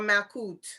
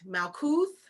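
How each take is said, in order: First: The word ends with a 't' sound. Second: The word ends with a 'th' sound. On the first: This is how some other people pronounce it. "Some people say Kut" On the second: This is the speaker's own pronunciation. "I say Kuth"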